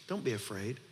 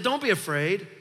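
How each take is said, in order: First: Soft, low and tender; hushed comfort, much lower and softer; gentle reassurance. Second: Proclaiming. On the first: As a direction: say it softly, like comforting a frightened father. Gentle retelling of Jesus' words. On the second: Preacher proclaiming God's words. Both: Acted.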